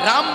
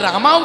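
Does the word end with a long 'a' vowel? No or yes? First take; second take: No; Yes. First: The word ends without a long 'a' vowel. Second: The word ends with a long 'a' vowel. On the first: "রাম বলতে গেলে" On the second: "রামা উচ্চারণ হয়"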